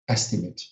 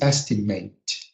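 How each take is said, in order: First: The final syllable sounds like 'it'. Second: The final syllable sounds like 'ate'. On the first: It is used as a noun. "but the noun is estimate" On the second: It is used as a verb. "the verb is estimate"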